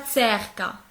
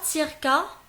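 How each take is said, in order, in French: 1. La première voyelle sonne comme un e net. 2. La première voyelle sonne comme un i net. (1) "ce n'est pas cerca" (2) "ce n'est pas circa"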